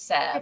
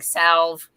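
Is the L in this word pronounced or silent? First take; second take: silent; pronounced. First: The L in the word is silent. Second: The L in the word is pronounced. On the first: The speaker calls it right. "I know the L is silent" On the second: The speaker calls it wrong. "book narrators mispronouncing things"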